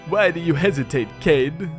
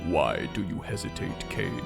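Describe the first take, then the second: First: It is spoken in a put-on character voice. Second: It is spoken in an ordinary natural voice.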